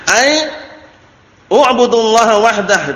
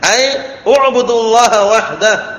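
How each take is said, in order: First: A glottal stop starts u'budu, not linked. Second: U'budu is linked smoothly to the preceding word. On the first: The speaker calls it wrong. "itu keliru ya itu... itu hamzah qat' keliru itu ya" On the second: The speaker calls it right. "Yang ada hamzah wasl tanpa ditulis hamzah di atasnya itu"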